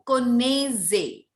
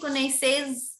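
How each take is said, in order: First: The final z sound is silent. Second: The final z sound is pronounced. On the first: The speaker calls it right. "very nice. Vous connaissez" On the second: The speaker calls it wrong. "you are saying connaisses. Why you is is Z not a consonant?"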